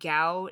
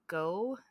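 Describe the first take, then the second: First: The syllable rhymes with cow. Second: The syllable rhymes with go. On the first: The speaker calls it wrong. "she kept saying Gow" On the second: The speaker calls it right. "not Go"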